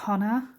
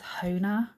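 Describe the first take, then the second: First: The first vowel is short, as in 'of'. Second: The first vowel is long, like 'oh'. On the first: This is how the speaker says the name. The speaker calls it right. "I call it Honor ... which is an of, not an ove" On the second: This is how the brand itself says the name. The speaker calls it wrong. "they actually pronounce it as Hona ... that's not right"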